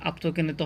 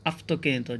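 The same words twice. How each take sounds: First: "আপ্তকেনিত" with a stopped p before t; mistaken p reading. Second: "আপ্তকেনিত" with f instead of p; f reading. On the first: Teacher showing learners the mistake, "আপ্তকেনিত" with p. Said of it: "আসলে আপ্তকেনিত হবে না". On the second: Teacher correcting the Greek word for learners, "আপ্তকেনিত" with f. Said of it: "এখানে হবে আপ্তকেনিত". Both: Shown as a demonstration.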